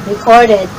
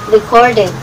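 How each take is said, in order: Both takes have the same delivery.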